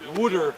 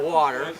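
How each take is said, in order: First: It is said with a Philadelphia-area 'wooder' accent. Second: It is said with an Upstate New York accent.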